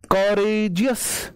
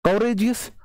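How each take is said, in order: First: courageous slowly stretched as क-रे-जि-यस; syllable by syllable. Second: Said in the usual way. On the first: Shown as a demonstration. Teacher showing it takes more than one beat, courageous slowly drawn out. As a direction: draw out each syllable of courageous. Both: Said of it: "एक बार में pronounce नहीं होते हैं".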